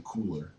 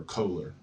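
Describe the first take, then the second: First: Kohler said as "Kooler"; Anglicized pronunciation. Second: Kohler said as "Koh-ler"; alternative pronunciation. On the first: Lecturer lists Gestalt psychologists, Kohler said as "Kooler". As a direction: say Kohler with an oo in the first syllable. First take of alternative name pronunciation. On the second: Lecturer offers students another pronunciation, Kohler with a long o. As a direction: say Kohler with a long o in the first syllable. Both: Shown as a demonstration.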